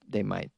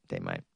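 First: Said in the usual way. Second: Much lower and softer repeat; deep low mutter. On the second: Shown as a demonstration. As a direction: drop the voice way down, quietly. Repeats own words much lower.

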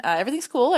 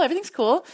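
First: Too much caffeine. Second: Wired and jittery, pitch jumping up; buzzing on caffeine, higher and louder; too much caffeine. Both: Real, not acted. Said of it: "I'm so caffeinated right now".

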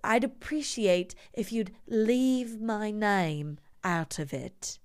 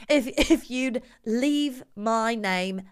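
First: Slow, over-pronounced mock-posh English; cut-glass English accent. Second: Slow put-on English accent, not posh enough; too-street English accent. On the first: Host as the patient asking to be left alone, cut-glass English accent. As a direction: draw it out in royal-family English. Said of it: "it's called a cut glass English accent". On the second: Host botching the fake gentleman's request, too-street English accent. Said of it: "No, that's two Street".

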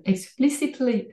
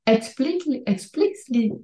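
First: Said in the usual way. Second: "explicitly" slurred as "expli-li", middle syllables swallowed; stumbled word. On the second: Real, not acted. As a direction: trip over "explicitly", dropping the "-cit-". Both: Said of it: "sorry, explicitly".

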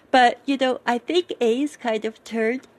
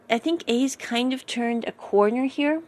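First: Talking through a real yawn. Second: Said in the usual way. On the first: Real, not acted. Recapping a character's progress to viewers, yawning mid-sentence. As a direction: let a yawn stretch the last words. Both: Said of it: "sorry, yawning here".

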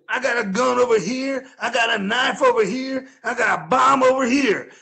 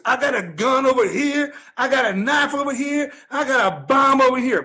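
First: Imitating the bum. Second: Higher, louder bum bragging about weapons; imitating the bum. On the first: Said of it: "this guy goes". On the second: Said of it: "He goes". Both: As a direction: list hidden weapons with mock menace.

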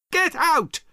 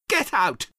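First: Louder shout. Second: Angry shout. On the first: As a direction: shriek Get out far higher and louder. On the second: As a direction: shout get out high and loud. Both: Acted. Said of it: "she repeated louder".

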